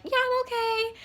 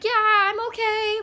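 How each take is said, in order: First: High chirpy fake reassurance; faking okay. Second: High, slow forced-cheerful reply; faking okay. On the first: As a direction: sound fine though clearly not. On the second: Retold or imitated. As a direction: pretend everything is fine while panicking. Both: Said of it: "full on anxiety attack".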